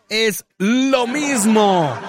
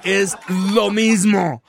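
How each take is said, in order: First: Drawn-out repeat. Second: Slow emphasis. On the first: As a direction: stretch it out laughing. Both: Real, not acted.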